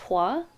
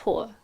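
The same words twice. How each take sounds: First: The name is said so it avoids sounding like 'whore'. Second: The name is said so it sounds like 'whore'. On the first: This is the changed form used to avoid teasing. The speaker calls it wrong. "I used to say that my last name was Hua, which it's not" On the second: This is the real form of the name. The speaker calls it right. "It's Hua"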